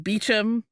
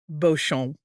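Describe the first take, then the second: First: The name is shortened to an English-sounding form. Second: The name has a French-sounding pronunciation. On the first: "they use the pronunciation Beecham. It sort of pains me to shorten a beautiful French name" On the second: "looks French. It looks like it would be pronounced Beauchamp"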